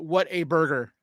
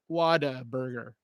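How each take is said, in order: First: The middle consonant is a clear T sound. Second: The middle consonant is a soft D sound. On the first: "it's actually what a burger" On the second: "like with a D"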